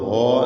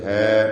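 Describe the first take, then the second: First: The vowel is darkened and heavy, toward o. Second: The vowel is a light, open a sound. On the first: The speaker calls it wrong. "ഹോ എന്ന് പറയരുത്" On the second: The speaker calls it right. "ഹാ ഹാറൂനു"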